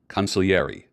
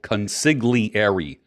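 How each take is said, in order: First: It is said the way it is normally pronounced. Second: It is sounded out the way it is written. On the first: "but it's pronounced" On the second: "It's spelled"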